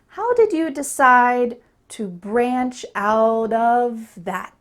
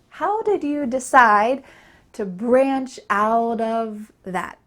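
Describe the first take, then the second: First: Every word is said clearly and fully. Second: The same.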